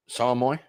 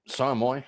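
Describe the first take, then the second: No difference in how they are said.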